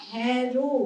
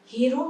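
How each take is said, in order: First: হ্যারো with an open æ like haero; খোলা অ্যা ধ্বনিতে হ্যারো. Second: হেরো with a closed e, the wrong form; বন্ধ এ ধ্বনিতে হেরো. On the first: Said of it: "সেক্ষেত্রে আমি কি বললাম". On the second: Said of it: "হেরো নয়". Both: Shown as a demonstration.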